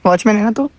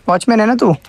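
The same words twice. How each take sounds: First: तू lifted in a rising question tune; a quizzing repeat that climbs on तू. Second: Said in the usual way. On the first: Real, not acted. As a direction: ask it again, ending up on तू.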